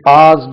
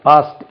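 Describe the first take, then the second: First: The word ends with an extra 'ed' syllable. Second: The word ends with a plain 't' sound. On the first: The speaker calls it wrong. "This is passed னு சொல்லக்கூடாது" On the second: The speaker calls it right. "உச்சரிப்பு past தான் இதுக்கு"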